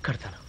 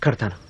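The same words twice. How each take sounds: First: Fading to soft. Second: Said in the usual way. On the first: Acted. Vows to tie the wedding thread.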